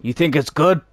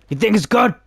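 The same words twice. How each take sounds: First: Said in the usual way. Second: Mocking high squeaky voice. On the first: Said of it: "gamer repeats the phrase". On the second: Shown as a demonstration. Gamer mocking the line in a squeaky voice. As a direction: pitch it way up, mocking. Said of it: "repeat in put-on high voice".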